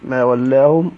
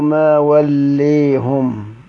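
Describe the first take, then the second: First: The vowel after L is a fully open ah. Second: The vowel after L leans strongly toward ee. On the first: "بالفتح" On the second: "ومال ما ولاهم حمزة والكسائي وكذا خلف،"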